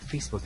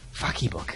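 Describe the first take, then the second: First: The word is said as two syllables. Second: The middle E is sounded as its own syllable. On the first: The speaker calls it right. "why are you saying it like it's Facebook?" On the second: The speaker calls it wrong. "The guy puts emphasis on the E"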